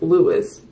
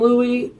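First: The name ends in an s sound. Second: The name ends in an ee sound. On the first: This is the version the man himself preferred. The speaker calls it right. "he actually preferred Louis" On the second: This is the commonly known version of the name. The speaker calls it wrong.

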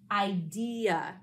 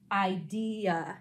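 First: The last syllable is a weak 'uh' sound. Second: The same.

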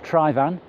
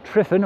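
First: The name is said with its native pronunciation. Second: The name is said with an anglicized pronunciation. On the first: The speaker calls it right. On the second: The speaker calls it wrong.

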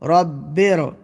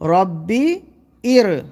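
First: The final consonant runs straight into the next syllable. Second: The second word starts with its own separate vowel. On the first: The hamza is a connecting hamza. The speaker calls it right. "এটা নকল বলে এখানে কি হয়েছে, রব রটা বাটা রয়ের সাথে যুক্ত হচ্ছে" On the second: The hamza is treated as a real hamza. The speaker calls it wrong. "আর যদি আসল হতো তাহলে এখানে কি পড়া হতো"

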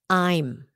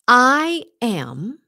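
First: The words are contracted into one syllable. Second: Two full words are said separately. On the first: The speaker calls it right. "I am becomes I'm" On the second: The speaker calls it wrong. "I am becomes I'm"

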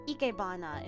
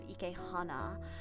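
First: The third syllable begins with a voiced b sound. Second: The third syllable begins with a breathy h sound. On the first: The speaker calls it right. "ikebana instead of ikehana" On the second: The speaker calls it wrong. "instead of ikehana"

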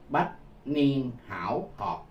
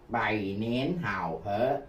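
First: The phrase is read with Sino-Vietnamese pronunciation. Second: The phrase is read with Mandarin pronunciation. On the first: "nếu tôi đọc theo âm tiếng Hán Việt" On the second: "Đó là tiếng Quan Thoại"

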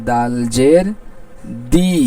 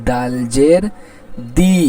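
Both takes have the same delivery.

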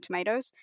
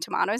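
First: Tomatoes is said the American way. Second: Tomatoes is said the Australian way. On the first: "instead of tomatoes" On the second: "I say Rotten Tomatoes"

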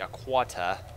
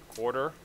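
First: It is said in a thick Boston accent. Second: It is said in the speaker's ordinary accent.

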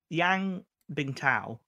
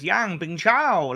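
First: The last syllable starts with a t sound. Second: The last syllable starts with a ch sound. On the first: This is the name as the sport usually says it. The speaker calls it right. "that's how you say it" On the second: This is one announcer's unusual version of the name. The speaker calls it wrong. "he goes Yang Bingchao like that"

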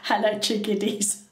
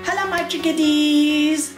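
First: It is said with a lower pitch. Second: It is said with a high pitch.

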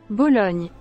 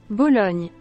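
The two takes are said the same way.

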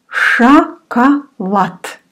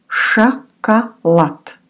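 Both takes have the same delivery.

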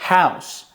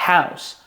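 Both takes have the same delivery.

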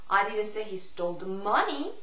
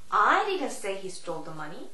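First: The stress falls on the word money. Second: The stress falls on the word I. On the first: "Money의 강세를 주느냐" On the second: "I의 강세를 주느냐"

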